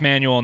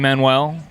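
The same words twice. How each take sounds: First: The name is said in its anglicized family form. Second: The name is said in its older, original form. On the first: This is how the family says it today. "I come from a family of East Texas rednecks. So it's Manuel now" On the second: This is how the name was said long ago. "five hundred years ago, it should have been. It was probably Manuel"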